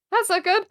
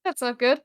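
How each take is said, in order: First: Higher, rising alarm. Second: Worried. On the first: Player repeats it in alarm as danger grows. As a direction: let the panic jump up. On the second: Player mutters on hearing the armor is stuck. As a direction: say it under your breath. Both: Acted. Player reacts to bad news.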